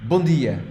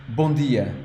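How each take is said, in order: No difference in how they are said.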